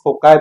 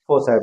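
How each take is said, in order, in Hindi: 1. बीच का व्यंजन k ध्वनि है। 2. बीच का व्यंजन s ध्वनि है। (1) "बहुत सारे लोग इसको फोकाई भी पढ़ते हैं" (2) "इसको बोला जाता है फोसाई"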